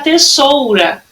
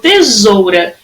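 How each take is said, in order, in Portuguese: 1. A consoante do meio é um som de S, que sibila. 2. A consoante do meio é um som de Z, que vibra. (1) "se eu colocar dois S's... vai ficar tesoura" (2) "ele tem som de Z"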